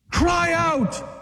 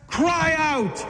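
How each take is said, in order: First: A fervent shout of Cry out; shouted command. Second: Urging. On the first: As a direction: bellow Cry out as a call to act. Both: Acted. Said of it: "when you're in distress, cry out".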